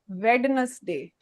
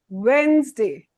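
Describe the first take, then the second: First: The middle D sound is pronounced. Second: The middle D sound is silent. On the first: The speaker calls it wrong. "It's not" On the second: The speaker calls it right. "There is no D when we speak"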